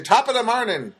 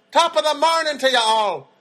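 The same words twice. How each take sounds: First: Lightly mocked Irish accent, higher; a quick stock Irish greeting, half-hearted; Irish impression. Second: Hammed-up Irish accent, high and loud; a cheery stage Irish greeting, much higher and louder; Irish impression. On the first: Mocking how people do Irish impressions, light Irish accent. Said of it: "when people do Irish impressions". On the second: Comedian doing a stage Irish greeting to everyone outside, hammed-up Irish accent. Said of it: "That's my Irish impression".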